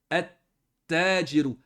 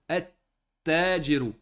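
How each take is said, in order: Both takes have the same delivery.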